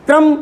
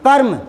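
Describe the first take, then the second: First: क्रम said "kram", k and r joined; क्रम with k sliding straight into r; saying kram. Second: कर्म said "karm", r before the m; कर्म with the r closing the first syllable; saying karm. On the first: Teacher contrasting क्रम with कर्म, saying "kram". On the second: Teacher contrasting कर्म with क्रम, saying "karm". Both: Shown as a demonstration. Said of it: "अलग अलग आवाज़ क्यों आ रही है".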